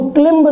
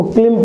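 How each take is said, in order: First: क्लिम्ब with the final b sounded; wrong pronunciation. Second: क्लिम ending on m, no b; silent b. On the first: Teacher shows the mistaken reading, क्लिम्ब with audible b. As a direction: say क्लिम्ब, voicing the b after m. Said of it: "इसको क्लिम्ब नहीं पढ़ेंगे". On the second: Teacher shows the correct reading, क्लिम with silent b. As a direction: close क्लिम on the m, dropping the b. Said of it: "इसको क्लिम पढ़ेंगे". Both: Shown as a demonstration.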